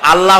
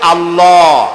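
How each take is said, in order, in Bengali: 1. স্বরধ্বনিটি উচ্চারণ করা হয় ঠোঁট গোল না করে। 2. স্বরধ্বনিটি উচ্চারণ করা হয় ঠোঁট গোল করে। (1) "আল্লাহ হচ্ছে অশুদ্ধ" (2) "বলার সময় মুখটা গোল হয়ে যাবে।"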